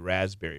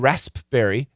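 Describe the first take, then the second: First: The P sound is silent, like 'raz'. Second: The P sound is pronounced in the middle. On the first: The speaker calls it right. "It's always raspberry, like R A Z" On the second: The speaker calls it wrong. "Never say the P. Never say raspberry"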